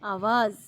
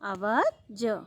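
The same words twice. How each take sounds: First: The last consonant is a z sound. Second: The last consonant is a j sound. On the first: "और दूसरा" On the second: "उसके नीचे नुक्ता नहीं है, बिंदी नहीं है ज के नीचे"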